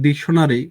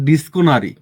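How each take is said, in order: First: The middle is said with a 'ksh' sound. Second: The middle is said with a 'sko' sound.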